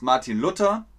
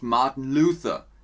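First: The name is pronounced the German way. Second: The name is pronounced the English way. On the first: It refers to the reformer from Germany. "Ich sage bewusst Martin Luther" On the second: It refers to a different person. "und nicht Martin Luther. Das ist eine andere Person"

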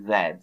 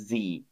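First: The letter is said as zed. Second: The letter is said as zee. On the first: This is the British name of the letter. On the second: This is the American name of the letter.

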